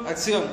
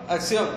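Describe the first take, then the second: Both takes have the same delivery.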